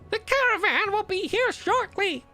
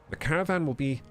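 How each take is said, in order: First: It is said in a put-on character voice. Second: It is said in his normal voice.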